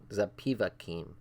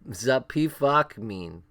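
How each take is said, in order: First: The name ends with the sounds 'kim'. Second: The name ends with the sounds 'kmin'. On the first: The speaker calls it right. "It's Zapivakim" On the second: The speaker calls it wrong. "I've been saying it wrong the whole time"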